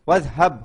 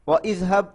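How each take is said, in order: First: The two words run together with no separate vowel. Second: The two words are split with a separate vowel. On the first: The speaker calls it right. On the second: The speaker calls it wrong.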